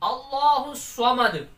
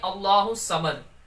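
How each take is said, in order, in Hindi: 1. s की आवाज़ भरी हुई और भारी है। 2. s की आवाज़ सादी और हल्की है। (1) "इसको भी पुर पढ़ना" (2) "समद सीन पड़ जाते हैं"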